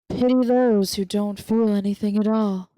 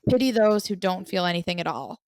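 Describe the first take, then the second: First: It is said in a smooth put-on character voice. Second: It is said in the speaker's normal voice. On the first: "my Reese voice ... He's very like milky smooth" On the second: "I'll do it in my Reese voice after I say it"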